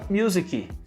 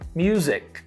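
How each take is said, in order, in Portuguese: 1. Um som de vogal extra vem depois da consoante final. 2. A palavra termina direto na consoante. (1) "Mas a gente fala music" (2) "que é music"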